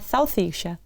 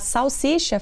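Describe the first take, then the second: First: The s sounds are lisped with tongue between teeth. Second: The s sounds are made clearly behind the teeth. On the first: "a língua fica interposta entre os dentes" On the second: "ao invés de falar"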